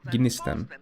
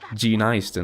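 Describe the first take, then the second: First: The word begins with a very faint G sound. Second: The first vowel is said like eye. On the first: The speaker calls it right. "It's a very small G" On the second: The speaker calls it wrong. "as long as you don't say I"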